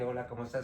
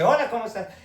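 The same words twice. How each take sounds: First: It sounds flat, routine and automatic. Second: It sounds fresh, lively and spontaneous.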